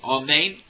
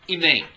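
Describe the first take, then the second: First: The first vowel is a full 'o' sound. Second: The first vowel is a short, reduced 'i' sound. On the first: The speaker calls it right. "You don't say it with a patach or with a komatz" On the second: The speaker calls it wrong. "with a shva"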